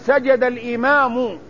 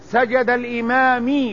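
First: The last word ends with a u vowel. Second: The last word ends without a u vowel. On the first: The speaker calls it right. "لابد أن تقول سجد الإمام، لأن الإمام هو الفاعل" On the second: The speaker calls it wrong. "غلط"

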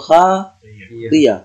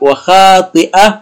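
First: The middle consonant is a y sound. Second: The middle consonant is a glottal stop.

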